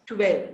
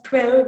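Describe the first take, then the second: First: "twelve" as tu-welve; two-syllable "twelve", with oo after the t; inserted oo. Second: Said in the usual way. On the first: Shown as a demonstration. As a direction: slip an oo between t and w in "twelve". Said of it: "the oo sound in between consonant". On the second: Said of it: "instead of twelve".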